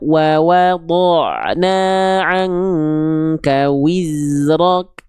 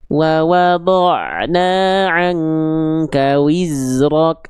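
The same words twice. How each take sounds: First: The w sound is strong, with rounded lips. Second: The w sound is weak, with flat lips. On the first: The speaker calls it right. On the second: The speaker calls it wrong. "jangan sampai dibaca begini ... Nggak ada wawnya di sana. Kurang sempurna"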